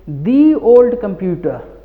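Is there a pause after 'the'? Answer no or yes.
yes. There is a pause after the first word. The speaker calls it wrong. "If you say the old computer, then this is also little bit wrong"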